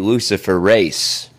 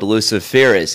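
First: The word ends with an 'ace' sound. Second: The word ends with a short 'iss' sound. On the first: The speaker calls it right. "It's actually Luciferase" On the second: The speaker calls it wrong. "It's mispronounced"

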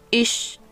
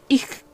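First: The ch sounds like a Spanish ch. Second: The ch sounds like a Spanish j. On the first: This is how it is said in northern Germany. "en el norte de Alemania se pronuncia más como una CH de español" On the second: This is how it is said in Berlin. "En Berlín se pronuncia más como una J"

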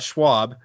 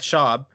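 First: The name is said with a w sound. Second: The name is said without a w sound. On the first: The speaker calls it wrong. "not Schwab" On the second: The speaker calls it right. "Matt Schaub"

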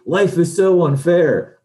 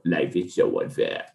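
First: It is said in a plain, normal voice. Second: It is said in a sinister Emperor-like voice.

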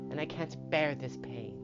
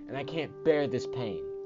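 First: It is said in a put-on Walter voice. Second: It is said in his normal voice.

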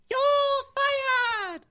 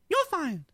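First: It sounds like an Asian-sounding voice. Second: It sounds like an impression of the president.

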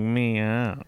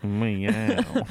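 First: The meow is said in a Southern drawl. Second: The same.

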